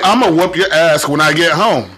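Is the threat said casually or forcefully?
forcefully. The threat is said forcefully, meaning it.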